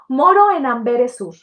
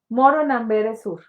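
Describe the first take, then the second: First: It is read with lively, varied intonation. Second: It is read in a flat, monotone voice. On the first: The reading engages the listener. The speaker calls it right. "necesito darle una entonación" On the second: The reading feels boring and tiresome. The speaker calls it wrong. "si yo leo así, qué hueva"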